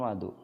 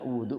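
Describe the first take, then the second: First: The first vowel is an 'a' sound. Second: The first vowel is an 'u' sound. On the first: It means the water used for ritual washing. "Wa bi fathiha" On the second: It means the act of ritual washing. "Kalau dibaca wudhu, wawunya di domah"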